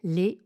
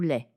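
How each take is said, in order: First: The vowel is a closed e sound. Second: The vowel is an open e sound. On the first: "avec un « e » et accent aigu" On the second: "avec un « e » et accent grave"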